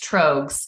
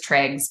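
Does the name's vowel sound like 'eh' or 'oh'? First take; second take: oh; eh. First: The vowel in the name sounds like 'oh'. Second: The vowel in the name sounds like 'eh'. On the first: The speaker calls it right. "but it's Trogs" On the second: The speaker calls it wrong. "I thought it was Tregs"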